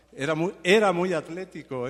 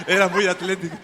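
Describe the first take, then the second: First: Said in the usual way. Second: Laughing. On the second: Real, not acted.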